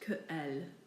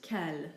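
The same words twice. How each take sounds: First: The two words are said apart from each other. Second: The two words run together as one. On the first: The speaker calls it wrong. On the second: The speaker calls it right. "You simply say in one fluid um, movement"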